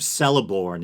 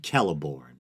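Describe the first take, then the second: First: The name begins with a soft S sound. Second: The name begins with a hard K sound. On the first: The speaker calls it wrong. "which I guess is a common mistake" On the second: The speaker calls it right. "is supposed to be pronounced as a hard C or a K"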